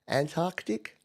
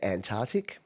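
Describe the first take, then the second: First: The k sound in the middle is clearly pronounced. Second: The k sound in the middle is left out. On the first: The speaker calls it right. "there's clearly a C in there" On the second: The speaker calls it wrong. "The amount of people I hear say Antarctic"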